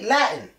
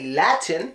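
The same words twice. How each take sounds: First: The middle T is stopped in the throat. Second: The middle T is clearly released. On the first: The speaker calls it right. "it does get the Putin T. We say Latin" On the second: The speaker calls it wrong. "We wouldn't say Latin"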